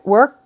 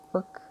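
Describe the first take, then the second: First: \"Work\" punched out louder and higher, rising at the end. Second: Murmured softly under the breath; quiet. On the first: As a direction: hit \"Work\" with a lifted questioning punch. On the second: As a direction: let the word drop away softly. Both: Shown as a demonstration. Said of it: "thinking about when I left work".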